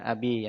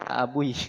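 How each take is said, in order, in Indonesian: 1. Kata itu hanya ada bunyi i setelah b. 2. Kata itu ada bunyi u sebelum i terakhir. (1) "makanya dijadikan abi yang supaya sesuai dengan ya mutakalimnya" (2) "nggak ada yang akan ja abui"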